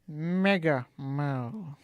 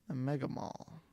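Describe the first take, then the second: First: It is said in a Doctor Evil voice. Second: It is said in his normal voice.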